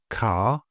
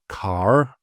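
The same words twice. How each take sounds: First: The vowel is long and the R is silent. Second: The R is pronounced at the end. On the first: The speaker calls it right. "we pronounce the vowel longer instead of rolling the R. So here we have car" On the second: The speaker calls it wrong. "not car"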